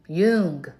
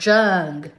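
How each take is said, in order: First: The name is said in a standard way. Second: The name is said in a Texan accent.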